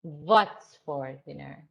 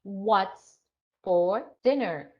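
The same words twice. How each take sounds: First: "what's" said as "vot's"; "vot's for dinner", V replacing W; foreign V for W. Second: "What's" with a rounded W, no V; English W drill. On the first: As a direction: start "what's" with a V, slow and low. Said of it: "So they say V". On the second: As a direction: say "What's... for dinner" in measured pieces. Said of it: "So practice on pronunciation". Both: Shown as a demonstration.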